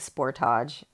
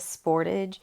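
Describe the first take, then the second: First: The name is pronounced in a fancy, formal way. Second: The name is pronounced in a plain, ordinary way. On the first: The speaker calls it wrong. "I've been saying Sportage" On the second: The speaker calls it right. "the car name is the Kia Sportage"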